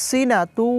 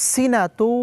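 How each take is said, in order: Both takes have the same delivery.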